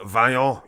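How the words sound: The name is said with a French pronunciation. The speaker calls it right. "You gotta say it properly like the French man"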